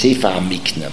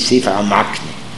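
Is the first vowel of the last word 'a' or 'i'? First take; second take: i; a. First: The last word begins with an 'i' vowel. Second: The last word begins with an 'a' vowel. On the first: This is the form written in the text. The speaker calls it right. "the way it is to be pronounced is Sefer HaMikne" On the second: This is the form commonly used in study. The speaker calls it wrong. "we say Sefer HaMakne"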